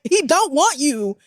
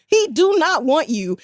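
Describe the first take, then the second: First: "don't want you" drawn out and pitched up; slow, high stress on "don't want you"; emphatic insistence. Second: "do not want you" hammered out word by word, high-pitched; word-by-word emphasis. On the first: Spelling out a rejection emphatically. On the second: Repeats it with the negation spelt out. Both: Real, not acted.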